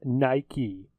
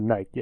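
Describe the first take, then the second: First: The final E is sounded as a second syllable. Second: The final E is silent, one syllable only. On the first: The speaker calls it right. "The E is not silent" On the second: The speaker calls it wrong. "They pronounce it Nike"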